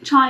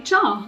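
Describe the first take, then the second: First: The word ends with an 'eye' sound. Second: The word ends with an 'ah' sound. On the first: This is how it is said in Hindi. "Chai is like how you say it in Hindi" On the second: This is how it is said in Punjabi. "but Punjabi, I would say cha"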